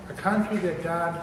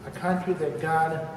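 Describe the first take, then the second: No difference in how they are said.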